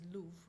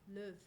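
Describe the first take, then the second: First: The vowel has a Northern English quality. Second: The vowel has a Scottish, French-like quality. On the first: "if we talk about the north, which is luv" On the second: "in Scottish, it would be slightly different"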